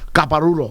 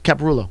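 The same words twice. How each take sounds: First: The name is pronounced with Spanish-style sounds. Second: The name is pronounced with English-style sounds. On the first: The speaker calls it wrong. "My Spanish wants me to say Caparulo" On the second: The speaker calls it right. "but it's not. It's Caparulo"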